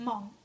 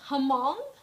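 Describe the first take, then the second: First: The initial H is silent. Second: The initial H is sounded. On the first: The speaker calls it right. "The H is silent. It's it's just Hmong" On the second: The speaker calls it wrong. "a lot of people pronounce it Hmong"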